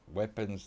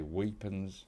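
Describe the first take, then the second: First: Said in the usual way. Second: Weapons with a long ee, like weepons; Kiwi pronunciation. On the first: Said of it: "they say, like". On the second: Shown as a demonstration. Australian gamer mimics how Kiwis say weapons, weepons with an ee. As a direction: say weapons as New Zealanders do, weepons. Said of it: "they'll say weapons".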